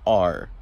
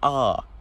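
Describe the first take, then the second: First: The r sound is clearly pronounced at the end. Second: The r sound is dropped, leaving an open ah. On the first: The speaker calls it wrong. "not R" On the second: The speaker calls it right. "you say ah"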